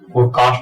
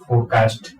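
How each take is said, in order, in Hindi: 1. 'cast' में स्वर लंबा 'aa' है। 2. 'cast' में स्वर छोटा 'a' है। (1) "फोरकास्ट बोलते इसको" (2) "ना कि फोरकास्ट"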